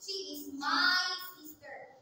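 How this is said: The stress is on my.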